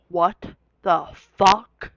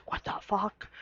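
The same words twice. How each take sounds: First: Drawn out, very slow what the fuck; stunned disbelief. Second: Soft, breathless whispered what the fuck; whispered disbelief. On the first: To classmates after hearing her name, a slow stunned disbelief. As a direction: let it crawl out, slow and floored. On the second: To herself in history class, a whispered disbelief. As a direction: whisper it in shock. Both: Retold or imitated.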